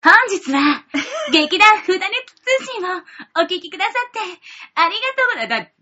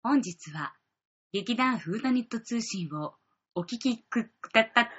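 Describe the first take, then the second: First: It is said in a cheerful, lively tone. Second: It is said in a low, gloomy tone.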